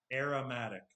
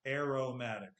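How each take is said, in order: First: AROMATIC with RA for RO; mispronounced second syllable. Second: AROMATIC with RO like row; corrected pronunciation. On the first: Teacher trying the practice tool, slips to "ra" in aromatic. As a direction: say aromatic with a weak "ruh" in the middle. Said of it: "I said "ra" instead of "ro". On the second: Teacher retrying for the practice tool, aromatic with clear "ro". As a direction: say aromatic with a full "oh" after AIR. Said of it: "hopefully I can do it". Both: Shown as a demonstration.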